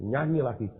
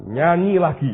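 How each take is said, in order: First: Said in the usual way. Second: Insistent repeat. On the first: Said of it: "Dia bilang". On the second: Retold or imitated.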